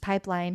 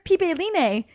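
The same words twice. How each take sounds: First: It is said with ordinary English pronunciation. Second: Every vowel is sounded out separately, Hawaiian-style. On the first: The name is just the English word. The speaker calls it right. "this time it's just regular pronunciation" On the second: The speaker is trying hard to sound local. The speaker calls it wrong. "they kept pronouncing the words"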